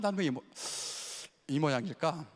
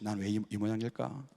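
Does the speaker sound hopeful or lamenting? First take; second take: hopeful; lamenting. First: It is said in a hopeful, expectant tone. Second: It is said in a sighing, lamenting tone. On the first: The speaker eagerly wonders about a purpose for themselves. "뭔가 그냥 기대에 차 있는" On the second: The speaker is disappointed in themselves. "한탄하는 거예요"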